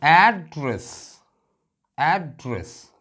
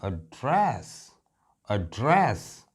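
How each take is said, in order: First: address with the opening AD punched high, then falling; stress on first syllable. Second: address as uh-DRESS, the ending punched; quick weak start, long stressed DRESS in address; stress on second syllable. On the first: Teacher showing the home-address meaning, address stressed AD-dress. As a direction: hit AD in address, let DRESS drop. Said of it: "मैंने stress यहां दिया है एड पर". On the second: Teacher showing the speech meaning, address stressed on DRESS. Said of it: "तो stress यहां आ गया". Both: Shown as a demonstration.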